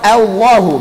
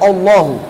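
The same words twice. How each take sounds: First: The opening hamzah sounds thin and light. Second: The opening hamzah sounds thick and heavy.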